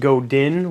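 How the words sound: The name is said as English spelling suggests. The speaker calls it wrong. "A lot of people pronounce it Godin, which is basically how it's spelt"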